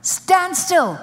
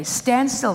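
First: Higher and louder, STAND STILL snapped out; loud command. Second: Said in the usual way. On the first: Acted. Holy Ghost telling a panicking believer, loud stern command. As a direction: bark stand still as an order.

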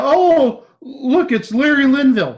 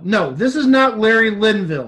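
First: High, loud fake star-spotting gush; exaggerated, sing-out amazement; mock excitement. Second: Firm, loud denial leaning on NOT; raised, insistent correction, punching NOT; stress on NOT. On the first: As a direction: pretend to be thrilled by a minor celebrity. Mock excitement at minor celebrity. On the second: Real, not acted. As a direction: shoot it down, hitting NOT hard. Denies the mock sighting.

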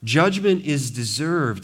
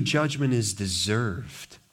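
First: Slow and louder Judgment is deserved; firm deliberate verdict; slow emphatic stress. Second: Slow, low judgment is deserved; deliberate pronouncement; slow stress. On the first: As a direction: pound the verdict out slowly. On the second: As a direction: lay each word down slowly. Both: Acted. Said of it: "here he lays out".

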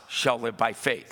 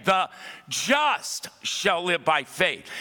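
First: Said in the usual way. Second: "the just shall live by faith" slow, every word weighted; emphatic repeat. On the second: Shown as a demonstration. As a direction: proclaim it slowly with a shout of conviction. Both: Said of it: "I want to say it again".

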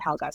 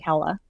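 First: Helga, said as the mistaken name; the mistaken Helga, said in passing; wrong name Helga. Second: Hela, two syllables, no g; correct name Hela. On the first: Correcting herself about the character's name, Helga. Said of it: "sorry, Hela". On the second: Correcting her own slip on the name, saying Hela. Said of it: "it's not Helga". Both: Shown as a demonstration.

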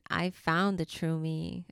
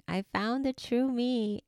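First: Said in the usual way. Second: Higher, thrilled echo of the same words; excited repeat. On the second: Real, not acted. Host telling mamas she found herself, now higher and thrilled. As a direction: lift it with joy the second time.

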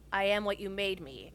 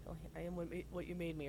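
First: Said in the usual way. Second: Very soft, lowered murmur; under the breath. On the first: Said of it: "Darth Vader says". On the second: Retold or imitated. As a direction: murmur it to yourself, barely audible. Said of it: "under my breath".

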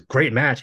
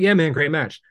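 First: "Great match." thrown back, mildly mocking; bitter echo. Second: Casual, higher "great match" tossed off; breezy praise. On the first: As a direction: repeat "Great match." back as a sour jab. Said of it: "And he says". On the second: Retold or imitated. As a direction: toss off "Yeah, man, great match." lightly, not really listening. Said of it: "I was like".

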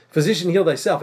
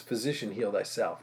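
First: Said in the usual way. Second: Quoted proverb. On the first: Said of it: "What does that proverb mean?". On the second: Retold or imitated. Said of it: "you're gonna quote to me this proverb".

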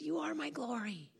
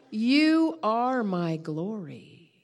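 First: Soft, hushed reassurance; gentle voice of God. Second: Very slow, weighty declaration; voice of God. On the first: The Lord repeats himself to calm the preacher, gentle hushed voice. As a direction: say it tenderly, far quieter. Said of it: "And he said". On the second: The Lord answers the guilty preacher, solemn voice of God. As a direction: draw out each word with solemn authority. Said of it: "he said to me". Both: Retold or imitated.

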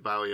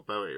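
First: "Bowie" with first syllable rhyming with "cow"; first pronunciation variant. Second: "Bowie" with first syllable rhyming with "go"; second pronunciation variant. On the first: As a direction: say "Bowie" as BOW-ee, as in taking a bow. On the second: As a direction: say "Bowie" as BOH-ee, as in bow and arrow. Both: Shown as a demonstration. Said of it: "don't know how to pronounce his surname".

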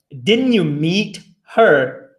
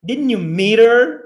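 First: Slow, careful, every word apart. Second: Quick, linked-up natural speech; fast. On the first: Teacher drilling students slowly, word by word. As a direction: spell it out slowly for learners. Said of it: "É difícil falar devagar". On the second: Teacher showing students the fast natural version. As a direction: run the words together. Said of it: "Se você for falar rápido, vai ficar assim". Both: Shown as a demonstration.

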